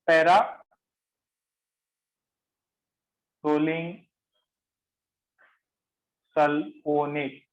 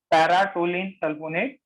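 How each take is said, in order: First: Very slow, long gaps between para, rolling and sulfonate; piece-by-piece dictation. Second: Said in the usual way. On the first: Shown as a demonstration. Teacher giving the class a new compound name, dictated in pieces. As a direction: break the long chemical name into separate chunks.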